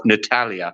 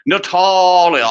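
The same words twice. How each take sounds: First: Said in the usual way. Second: "Natalia" drawn out slow and high, posh; posh husband's pronunciation. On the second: Acted. Mocking how the lord calls his wife, "Natalia" high and drawn out. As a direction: stretch "Natalia" in a mock-aristocratic voice. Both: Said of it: "Or as he calls her".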